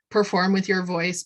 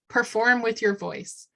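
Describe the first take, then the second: First: It is read in a flat, dull voice. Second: It is said in a lively, energetic voice. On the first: It sounds like just reading a script. The speaker calls it wrong. "I wouldn't just say, ... Not interesting" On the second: It conveys passion for the message. The speaker calls it right. "Instead, I would say something like, hey"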